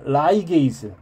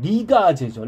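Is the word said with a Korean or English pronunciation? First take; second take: English; Korean. First: It is said with an English-style pronunciation. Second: It is said with a Korean-style pronunciation.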